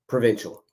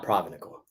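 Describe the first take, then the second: First: It is said with three syllables, pro-vin-shul. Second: It is said with an extra syllable, pro-vin-i-cal. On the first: The speaker calls it right. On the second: The speaker calls it wrong. "not Provinical"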